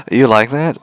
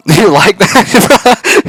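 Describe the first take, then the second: First: Said in the usual way. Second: Very high, loud, slow drawn-out laughing taunt; booming, giggling, slowed-down tease; laughing mock tease. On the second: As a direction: stretch it out, cackling, hamming it up. Teasing robot while feeding her.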